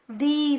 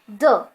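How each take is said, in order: First: It uses the pronunciation for before vowel sounds. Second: It uses the pronunciation for before consonant sounds. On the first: "if the noun begins with vowel sounds, we pronounce that as the" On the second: "before the consonant sounds, we pronounce it like the"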